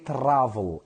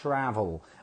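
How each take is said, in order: First: The R is not an American R. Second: The R is a controlled American R. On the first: The speaker calls it wrong. "do not say travel" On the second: The speaker calls it right. "you have to say I travel"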